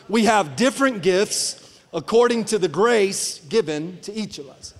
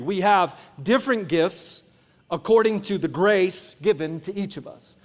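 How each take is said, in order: First: It is read in a lively, energetic way. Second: It is read in a flat, low-energy way.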